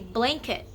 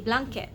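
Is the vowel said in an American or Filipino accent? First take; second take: American; Filipino. First: The vowel is said with an American accent. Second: The vowel is a plain Filipino a sound. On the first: "You say" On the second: "we say"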